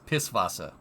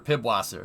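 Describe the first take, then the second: First: The middle consonant is an S sound. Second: The middle consonant is a B sound. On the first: The speaker calls it right. "It's Pisswasser" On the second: The speaker calls it wrong. "Don't say"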